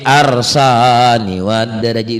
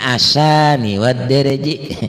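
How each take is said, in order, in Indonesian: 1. Ada bunyi r sebelum s. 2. Tidak ada bunyi r sebelum s.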